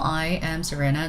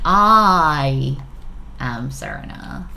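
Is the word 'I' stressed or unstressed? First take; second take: unstressed; stressed. First: The word 'I' carries no special stress. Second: The word 'I' is strongly stressed. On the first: A plain statement of the speaker's name. "Just equal general general sentence" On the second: It is this person and nobody else. "capital, like I am Serena, I am nobody else, kind of feeling"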